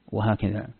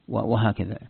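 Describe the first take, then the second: No difference in how they are said.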